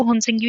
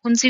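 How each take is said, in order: First: हुनसिंगी with the g sounded, hun-sing-gee; हुनसिंगी spoken with the g. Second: हुनसी with the g dropped, hun-see; हुनसी spoken with a silent g. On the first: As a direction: say हुनसिंगी pronouncing the g fully. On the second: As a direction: say हुनसी leaving out the g. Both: Shown as a demonstration. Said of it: "जिसमें जी silent हो जाता है".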